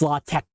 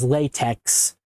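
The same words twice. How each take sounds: First: The word ends with a rough throaty sound. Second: The word ends with a 'ks' sound. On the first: The speaker calls it right. "it's not pronounced like X ... you gotta sound like you're hacking up a hairball" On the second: The speaker calls it wrong. "which you might have pronounced previously as latex"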